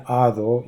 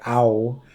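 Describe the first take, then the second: First: Said in the usual way. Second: "ao" with the D swallowed; dropped D. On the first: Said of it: "instead of saying". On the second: Shown as a demonstration. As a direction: say "ao", leaving out the D. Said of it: "you'd say".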